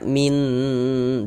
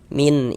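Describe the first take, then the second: First: The final n is held long. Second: The final n is cut short. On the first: The speaker calls it wrong. "Jangan dibaca min, ditahan begitu, jangan, salah" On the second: The speaker calls it right. "Kita baca pendek saja"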